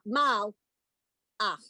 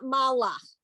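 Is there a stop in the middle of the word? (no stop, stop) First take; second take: stop; no stop. First: A sharp stop separates the two syllables. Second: The word flows without any break inside. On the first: The speaker calls it right. "You've got to put a dead stop" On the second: The speaker calls it wrong. "It is not malach"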